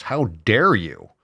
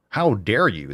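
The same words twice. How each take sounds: First: Slow, sarcastic how dare you; fake-scandalized gasp of a line; mock outrage. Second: Said in the usual way. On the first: Ranting vlogger mocks critics of grass-fed cows with slow sarcasm.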